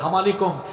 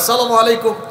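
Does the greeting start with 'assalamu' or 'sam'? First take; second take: sam; assalamu. First: The greeting starts with a clipped 'sam'. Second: The greeting starts with a full 'assalamu'. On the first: It wishes death on the listener. The speaker calls it wrong. "সাম মানে তো মৃত্যু" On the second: It wishes peace on the listener. The speaker calls it right. "শুদ্ধ করে বলতেন"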